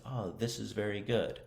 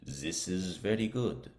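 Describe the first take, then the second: First: Lightly voiced model speaker, higher pitch; someone overheard. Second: Learner carefully copying a heard phrase; practicing imitation. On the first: Teacher quotes someone to be imitated, lightly voiced overheard speaker. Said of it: "I hear someone say". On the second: Learner imitates what was heard, practicing pronunciation. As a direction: repeat it as pronunciation practice, in a slightly altered voice. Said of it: "I'm practicing my pronunciation". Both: Shown as a demonstration.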